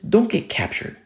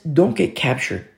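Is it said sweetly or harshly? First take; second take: sweetly; harshly. First: It is said in a sweet, gentle tone. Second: It is said in a harsh, stern tone.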